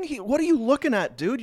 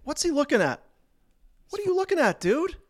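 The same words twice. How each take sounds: First: Lightly voiced confused brawler, a bit higher; mock dazed fighter. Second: Much higher, hammed-up clueless brawler; mock dazed fighter. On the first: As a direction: tease the clueless guy gently. Voicing the fighter on video. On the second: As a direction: ham up the confused drunk's squeak. Voicing the fighter again, bigger.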